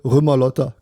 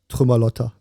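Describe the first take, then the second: First: The word begins without any T sound. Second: The word begins with a clear T sound.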